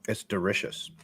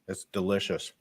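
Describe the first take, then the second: First: It is said in a put-on Thai accent. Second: It is said in the speaker's plain accent.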